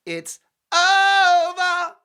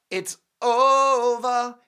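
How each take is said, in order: First: Over held very high and very loud, slowly; bigger drawn-out it's over. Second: Long, high, loud sing-song over; drawn-out it's over. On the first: Host topping his own line, held very high and loud. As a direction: soar the over up as far as it goes, drawn out. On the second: Host telling viewers Harry is done, drawn-out high and loud. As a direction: stretch over out slowly, pitched up and loud. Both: Acted.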